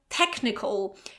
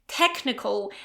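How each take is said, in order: First: The 'ch' is said as a k sound. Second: The same.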